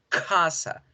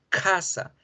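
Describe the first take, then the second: No difference in how they are said.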